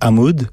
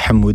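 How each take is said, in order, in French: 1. Le nom se prononce à la française. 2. Le nom se prononce à l'arabe. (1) "j'ai une éducation très française. Donc, moi, c'est [name]" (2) "si tu veux le prononcer à l'arabe, tu dis Hamoud"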